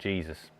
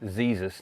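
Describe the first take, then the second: First: The word begins with a J sound. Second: The word begins with a Z sound. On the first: The speaker calls it wrong. "not Jesus" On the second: The speaker calls it right. "I don't understand why the J is pronounced Z"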